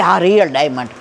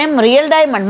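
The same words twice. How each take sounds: First: "real diamond" said lower and settled, stressing real; a hint of a boastful hostess; proud confirmation. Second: "real diamond" asked with a lifted, amazed tone; a touch of wide-eyed disbelief; surprised question. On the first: Rich woman boasts to narrator about her diamond, smugly. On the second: Retold or imitated. Narrator asks the rich woman about her diamond, surprised.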